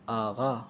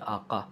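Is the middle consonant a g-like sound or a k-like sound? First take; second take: g-like; k-like. First: The middle consonant is a voiced g-like sound. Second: The middle consonant is a voiceless k-like sound. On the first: This is how the word is spoken. "फ़ारसी में बोला जाता है उसे आगा" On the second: This is how the word is spelled. "लिखा जाता है आका"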